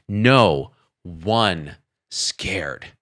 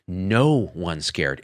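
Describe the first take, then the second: First: "No one scared" stretched very slowly; drawn out reading. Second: "No one scared" read slowly and low; slow puzzled reading. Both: Shown as a demonstration. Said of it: "Is it a typo or was it intentional?".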